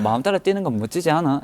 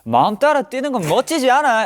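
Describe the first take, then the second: First: It has a mild, calm Gyeongsang dialect accent. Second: It has a strong, broad Gyeongsang dialect accent. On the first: "약간 좀 차분한 사투리면" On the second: "이걸 좀 네이티브로 하면"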